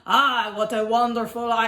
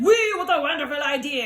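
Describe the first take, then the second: First: Put-on botched Australian through a French accent; failed Australian accent. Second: Put-on delighted exclamation in a French accent. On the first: French dinosaur imitating Australians, a badly failed Australian accent. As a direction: attempt Australian and break off. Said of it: "they said it in Australian". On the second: Picnickers greeting the idea, excited French accent. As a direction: cheer it in a hammed-up French accent. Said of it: "my French is too strong".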